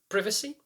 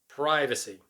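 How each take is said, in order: First: It is said in a British accent. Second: It is said in an American accent.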